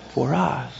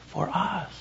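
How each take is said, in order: First: Said in the usual way. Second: Hushed repeat. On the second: Acted. Pastor to congregation, repeating the words in a hush. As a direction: drop to a near whisper.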